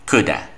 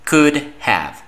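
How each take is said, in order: First: Have is reduced and joined into one word. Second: Have is pronounced fully as a separate word.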